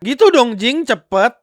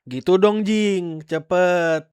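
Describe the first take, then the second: First: It is said in a rough, harsh tone. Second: It is said in a soft, gentle tone. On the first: "Atau mungkin kayak" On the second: "mungkin dia lebih halus"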